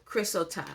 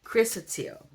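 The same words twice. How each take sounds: First: Chrysotile attempted with a wrong, tentative ending; unsure mispronunciation. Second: Chrysotile said higher and louder, ending in "teel"; correct pronunciation demo. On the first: Real, not acted. Reader sounding out a stone's name, unsure mispronunciation of chrysotile. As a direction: stumble at chrysotile, ending it on an open "ta". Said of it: "I can't say this word".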